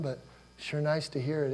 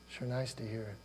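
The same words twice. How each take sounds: First: Said in the usual way. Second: "Sure nice to hear it" repeated much softer, almost to himself; soft echo. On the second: Shown as a demonstration. Pastor repeats the line gently to the congregation, soft echo. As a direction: let "nice" fall away quietly.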